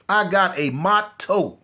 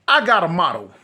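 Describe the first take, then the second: First: "I got a motto" said slowly, every word given weight; slow, weighty declaration. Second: Said in the usual way. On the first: Shown as a demonstration. Telling the viewers his rule, slow and weighty.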